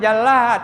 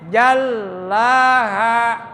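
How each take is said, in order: First: The long sound is cut short. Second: The long sound is pressed and held. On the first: The speaker calls it wrong. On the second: The speaker calls it right. "harus ditekan dan ditahan dua ketukan"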